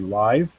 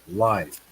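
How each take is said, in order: First: The vowel is a long i sound. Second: The vowel is a short i sound.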